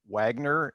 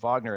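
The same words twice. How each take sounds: First: The name begins with a W sound. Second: The name begins with a V sound.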